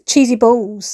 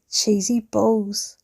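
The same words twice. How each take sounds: First: Said in the usual way. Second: "Cheesy balls" drawn out slow and soft; slow savoured cheesy balls. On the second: Real, not acted.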